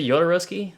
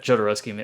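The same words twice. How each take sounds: First: The name starts with a soft J sound. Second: The name starts with a hard J sound.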